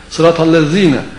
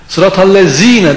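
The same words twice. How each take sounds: First: The z is lisped with the tongue between teeth. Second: The z is a sharp, hissing ordinary z. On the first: The speaker calls it right. "Z bu şekilde" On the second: The speaker calls it wrong. "dediğin zaman keskin z"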